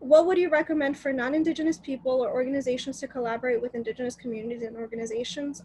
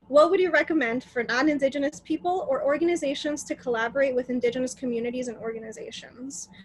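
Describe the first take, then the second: First: The question is read quickly. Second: The question is read slowly.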